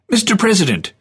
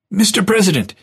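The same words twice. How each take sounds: First: High repeated call across the crowd. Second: High, bright call across a crowd. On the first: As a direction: call him again from a distance. Vermaak calls again. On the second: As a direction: call out to catch his attention. Vermaak calls across crowd. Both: Acted.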